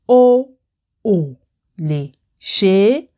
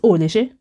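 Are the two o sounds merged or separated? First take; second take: separated; merged. First: The two o sounds are said separately. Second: The two o sounds run together quickly. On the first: "Can you see the difference in pronunciation?" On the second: "it is so fast that you rarely can tell the difference"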